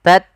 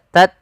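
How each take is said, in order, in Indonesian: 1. Hembusan napas ringan mengikuti t. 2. Hembusan napas ringan mengikuti t.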